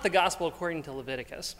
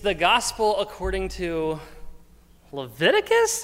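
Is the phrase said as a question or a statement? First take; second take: statement; question. First: It is said flatly, like a plain statement. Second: It is said with a questioning, incredulous rise. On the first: The speaker calls it wrong. "It's not" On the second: The speaker calls it right. "Like that's how I envision this"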